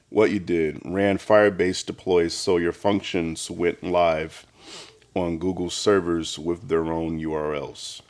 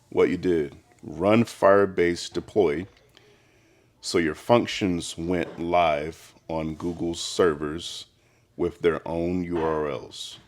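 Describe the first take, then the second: First: It is said at normal speed. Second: It is said slowly.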